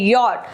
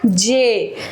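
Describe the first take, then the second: First: The letter is said like 'yot'. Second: The letter is said like 'jay'. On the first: The speaker calls it right. "जे को यॉट बोलते हैं" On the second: The speaker calls it wrong. "Not जे"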